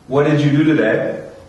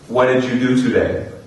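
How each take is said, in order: First: The words are strongly run together, with a flapped t. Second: The words are lightly joined together. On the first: "the more natural and relaxed I feel" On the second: "on the first level of connected speech"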